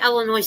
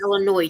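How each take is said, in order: First: The final S is sounded. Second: The final S is silent. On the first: "I go to say Illinois because you've got the S on the end" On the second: "but you go"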